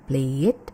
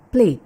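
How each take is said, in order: First: The ending is an extra id syllable. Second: The ending is a plain d sound. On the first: The speaker calls it wrong. "bukan play it" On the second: The speaker calls it right. "tapi played"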